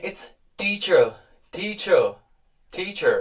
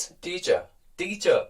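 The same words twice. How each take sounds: First: "teacher" in an American accent with a firm t and a clear r; slow American "teacher", sounding the r; American teacher demo, firm t. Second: "teacher" in a British accent with no final r; softer British "teacher", r dropped; British teacher demo, no r at the end. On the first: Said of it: "ट पे थोड़ा सा stress है और आर भी". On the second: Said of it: "जब हम British की बात करते हैं". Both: Shown as a demonstration.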